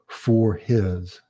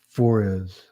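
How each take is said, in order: First: The two words are said separately and fully. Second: The two words run together as one word. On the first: "a completely different enunciation than for his" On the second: "The sounds are blended together"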